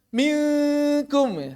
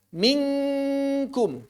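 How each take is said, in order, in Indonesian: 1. Sengaunya samar, lidah diletakkan jauh. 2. Sengaunya terdengar seperti ng sebelum k. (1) "malah renggang banget"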